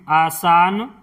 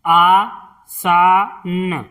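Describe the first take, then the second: First: Said in the usual way. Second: आसान drawn out slowly as आ-सा-न; slow syllable-by-syllable. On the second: Shown as a demonstration. Teacher sounding out आसान for pupils, slowly. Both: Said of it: "इस तरह से".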